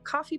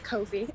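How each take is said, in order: First: It is said like the word coffee. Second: It is said with a long 'koh' first syllable. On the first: Another person says it this way. "as Raven says" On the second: This is the speaker's own way of saying it. "the way I say it"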